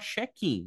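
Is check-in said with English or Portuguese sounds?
Portuguese. It is said with Brazilian Portuguese sounds. The speaker calls it wrong. "No português a gente fala check-in"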